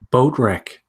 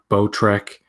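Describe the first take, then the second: First: The second part sounds like 'wreck'. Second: The second part sounds like 'trek'. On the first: The speaker calls it right. "I said it right" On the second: The speaker calls it wrong.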